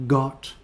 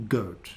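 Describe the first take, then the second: First: "Got" with a short, open /ɒ/ as in hot; short o vowel. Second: "goat" with the gliding /əʊ/ as in go; long o diphthong. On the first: Teacher drilling vowel pairs for learners, careful short o. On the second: Teacher drilling vowel pairs for learners, careful long o. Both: Shown as a demonstration. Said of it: "practice these sounds and spellings".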